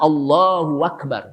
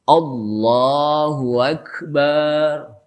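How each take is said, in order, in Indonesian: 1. Suku kata di tengah dipanjangkan. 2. Suku kata terakhir bar dipanjangkan. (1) "yang tadi tengah-tengah" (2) "Yang kedua bar-nya panjang"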